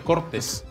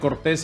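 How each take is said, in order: First: The stress falls on the first syllable. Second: The stress falls on the last syllable. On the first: It turns the name into a word for power cuts. "cambiándole la sílaba tónica" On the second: It is the department's proper name. "en vez de llamarle así"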